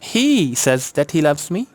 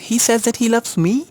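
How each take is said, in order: First: The stress falls on the first word, he. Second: The stress falls on the last word, me. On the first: That particular person is the one who says it. "Stress है ही पे।" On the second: Surprisingly, he loves this unloved person. "Nobody loved मी ever"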